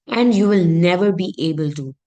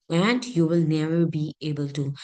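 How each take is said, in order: First: "you will never be able to" said louder, firmly; emphatic negation. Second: Said in the usual way. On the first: Shown as a demonstration. Teacher showing the verse's impossibility, emphatic negation. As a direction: drive home "never" with added force. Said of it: "It emphasizes the impossibility of an action". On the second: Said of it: "this is just emphasizing the impossibility".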